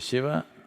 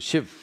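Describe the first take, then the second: First: The final vowel is fully pronounced. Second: The final vowel is cut off, northern Hindi style.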